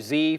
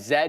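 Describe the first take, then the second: First: The letter is said as zee, American style. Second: The letter is said as zed.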